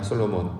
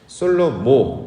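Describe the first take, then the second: First: The name ends with an n sound. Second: The name ends in a vowel, no n. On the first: This is the common, changed form of the name. "이제 N 발음, 니은 발음을 이제 하고 있는" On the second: This is the original Hebrew form of the name. "이게 이제 원래 발음하는 이름입니다"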